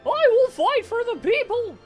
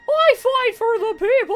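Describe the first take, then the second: First: It is said in a Morty-like voice. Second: It is said without a Morty-like voice.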